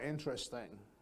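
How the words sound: The voice stays flat and level throughout. The listener is not really interested. The speaker calls it wrong. "that's monotone. That's like a robot"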